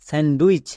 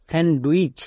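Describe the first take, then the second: Both takes have the same delivery.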